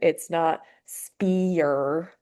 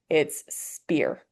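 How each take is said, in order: First: The vowel is split into two separate sounds. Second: The vowel is one smooth blended sound. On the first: The speaker calls it wrong. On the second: The speaker calls it right.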